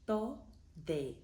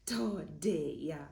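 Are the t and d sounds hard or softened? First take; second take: softened; hard. First: The t and d are soft, tongue between teeth. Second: The t and d are hard, tongue behind teeth. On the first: The speaker calls it right. "you are going to put your tongue between your teeth" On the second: The speaker calls it wrong. "which changes the meaning of the word completely"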